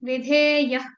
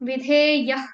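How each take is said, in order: The two takes are said the same way.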